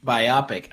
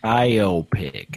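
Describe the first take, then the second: First: "Biopic" said as bye-AH-pick, short AH in the middle; own pronunciation. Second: "Biopic" as bye-OH-pick, the O long and round; corrected pronunciation. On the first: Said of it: "the etymology of biopic". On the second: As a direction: accept the dictionary's "Biopic", OH in the middle. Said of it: "from now on I'll say biopic". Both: Shown as a demonstration.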